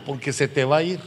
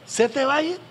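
First: Said in the usual way. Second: "Se te va a ir" repeated much higher, rising on "a"; emphatic repeat. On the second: Shown as a demonstration. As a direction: lift "Se te va a ir" high and rising to drive it home.

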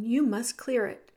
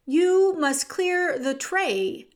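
First: Said in the usual way. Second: Slow, loud, higher-pitched order; shouted. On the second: A narrator's reading. Cook repeats the order to Meg, slowly shouted. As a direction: shout each word slowly. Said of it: "shouted Cook".

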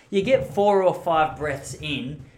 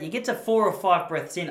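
First: Explaining the breathing method to viewers, slow and loud; slow, drawn out, louder. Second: Said in the usual way. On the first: Shown as a demonstration. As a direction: stretch it out slowly and loudly. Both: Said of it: "to give you an example".

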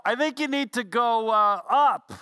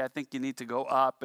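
First: Teasing call, higher and louder; smart aleck yell. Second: Said in the usual way. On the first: Retold or imitated. Smart aleck on the ground yells up to the climber, teasing. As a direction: yell the obvious answer back up, mocking. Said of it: "would yell". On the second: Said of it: "the person would say".

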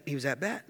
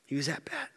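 First: Said in the usual way. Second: Hushed whisper for emphasis. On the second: Real, not acted. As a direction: whisper the repeat for effect. Repeats it whispered for effect.

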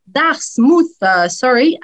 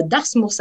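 First: Put-on English accent on Dartmouth; super English accent. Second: Said in the usual way. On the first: Shown as a demonstration. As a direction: say Dartmouth as an English speaker would, with emphasis. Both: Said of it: "avec mon super accent anglais".

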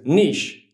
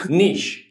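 First: Mock American "Niche", rhymes with pitch; American "nitch". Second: Mock French "niche", long ee and sh; French "neesh". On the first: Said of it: "he says". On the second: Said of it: "or as they say in France".

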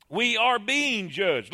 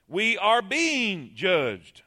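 First: We ARE being judged, stress on are; slow repeat leaning on are. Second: We are BEING judged, slow and weighty; drawn-out stress on being; slow emphatic. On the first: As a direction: press the word are. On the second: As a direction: lean on being, each word spaced. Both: Shown as a demonstration.

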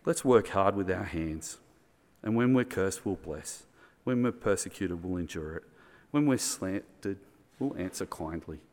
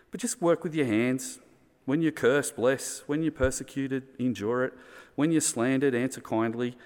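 First: Calm, gentle reading. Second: Rally the listeners to bless back; raised, driving charge to the congregation; urgent exhortation. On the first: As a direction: lay the words down gently, almost prayerful. Reading Paul's words, calm. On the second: Urging the church to act. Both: Acted.

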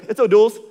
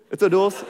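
First: Loud, high blurted O'Doul's; panicked excuse. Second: Insisting O'Doul's again, a bit less loud; repeated excuse. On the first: Guest caught with a drink, blurting to the pastor. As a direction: blurt it out fast to hide the beer. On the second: Guest repeating the excuse to the pastor, insisting. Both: Retold or imitated. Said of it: "They're like".

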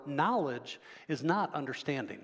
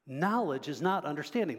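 First: Not は強く下げて言い切る; stress on not. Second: "Knowledge" hit first and strongest, then fall; stress on knowledge. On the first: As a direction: lean on "not", falling firmly. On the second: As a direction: open on "Knowledge" with weight. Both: Shown as a demonstration.

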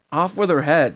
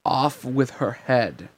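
First: Higher, louder incredulous protest; indignant echo. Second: Slow, drawn-out royal decree; imperious sentence. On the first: Sora objects to the Queen's verdict, indignant. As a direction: throw the sentence back in disbelief. Sora echoes the sentence, outraged. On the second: Queen sentences Alice, slowly decreeing. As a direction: stretch it out like a pronounced verdict. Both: A narrator's reading.

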